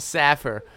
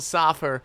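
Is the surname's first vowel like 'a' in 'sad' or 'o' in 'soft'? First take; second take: a in sad; o in soft. First: The first vowel sounds like the 'a' in 'sad'. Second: The first vowel sounds like the 'o' in 'soft'. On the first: The speaker calls it right. "It's Evan Russell Saffer" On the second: The speaker calls it wrong. "It's not Evan Russell Soffer"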